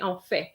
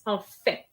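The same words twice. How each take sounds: First: The final T sound is not pronounced. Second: The final T sound is clearly pronounced. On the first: The speaker calls it wrong. "they don't pronounce the T with en fait. They say en fait" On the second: The speaker calls it right. "No, it's en fait"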